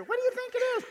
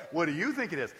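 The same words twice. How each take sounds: First: Put-on much higher small kid's voice; child voice. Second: Said in the usual way. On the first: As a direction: ask it like a playful little child. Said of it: "your grandkids or your kids come up to you". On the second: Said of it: "I go".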